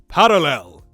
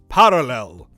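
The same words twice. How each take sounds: First: The R is a quick tongue tap. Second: The same.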